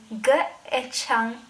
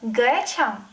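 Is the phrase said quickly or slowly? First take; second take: slowly; quickly. First: It is said at a slower, fuller pace. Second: It is said faster, with sounds run together. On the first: "when you pair the three words together, it turns into" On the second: "if you want to say a little bit faster, it sounds like"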